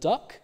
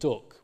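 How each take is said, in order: First: It is said with a southern English vowel. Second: It is said with a northern English vowel. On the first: "in the south, you have words like up, butt, and duck, as in my variety" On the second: "In the north, you'll get things like up, butt, and duck"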